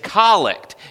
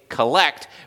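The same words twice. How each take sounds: First: The stress is on the first syllable. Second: The stress is on the second syllable. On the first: The speaker calls it right. "but it's collect. It's the emphasis on the wrong syllable" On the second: The speaker calls it wrong. "I know it looks like you would say collect"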